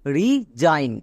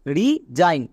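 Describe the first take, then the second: No difference in how they are said.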